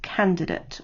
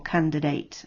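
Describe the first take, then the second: First: It is said in a British accent. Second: It is said in an American accent.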